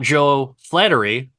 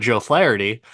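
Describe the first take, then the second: First: The surname is pronounced like the word flattery. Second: The surname is pronounced as Flaherty. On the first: The speaker calls it wrong. "Not Joe Flattery" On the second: The speaker calls it right. "but Joe Flaherty"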